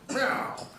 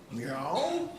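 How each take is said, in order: First: Meow in a fast old-time movie gangster voice. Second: Meow in a gritty, mumbled seventies tough-guy voice. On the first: "meowed like Jimmy Cagney in one of those old gangster films" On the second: "meowed like Robert De Niro in Taxi Driver"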